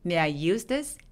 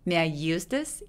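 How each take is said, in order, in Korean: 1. use라는 단어는 분명하게 강세가 있습니다. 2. use라는 단어는 분명하게 강세가 있습니다.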